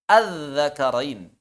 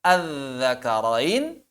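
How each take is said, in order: First: "Al-zakarain" with a falling news-report tune; statement intonation. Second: "Al-zakarain" drawn out with a rising question tune; question intonation. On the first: Teacher demonstrating news intonation on the Arabic word, falling statement tune. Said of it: "Ini intonasinya intonasi kabar". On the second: Teacher changing the intonation to ask a question, rising tune. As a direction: dip through "Al-zakarain", then swing up sharply at the end. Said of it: "itu kan intonasi nanya". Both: Shown as a demonstration.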